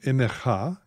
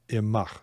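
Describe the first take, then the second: First: It has three syllables ending in cha. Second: It has two syllables ending in ach. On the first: "three syllables with a cha ending" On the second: "two syllables"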